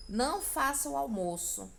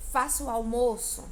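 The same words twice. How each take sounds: First: "Não faça o almoço" raised, firm command; negative order. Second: "Faça o almoço" loud, weight on FAÇA; giving an order. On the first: Teacher demonstrating a negative imperative, firm order on "Não faça". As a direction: forbid it with "Não faça" pitched up. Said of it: "também uma ordem, só que negativa". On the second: Teacher demonstrating an imperative phrase, loud command on "Faça". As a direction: order it firmly, hitting "Faça". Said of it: "você tá dando uma ordem". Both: Shown as a demonstration.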